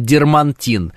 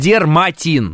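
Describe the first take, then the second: First: An n sound comes before the t. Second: No n sound comes before the t. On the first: The speaker calls it wrong. "Нет никакого дермантина" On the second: The speaker calls it right. "он дерматин"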